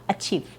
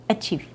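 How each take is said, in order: The two takes are said the same way.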